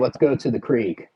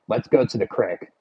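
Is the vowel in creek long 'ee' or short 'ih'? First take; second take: long ee; short ih. First: Creek is said with a long ee vowel. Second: Creek is said as crick, Philly style.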